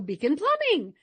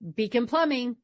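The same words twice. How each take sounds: First: The pitch goes up at the end. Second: The pitch stays flat at the end.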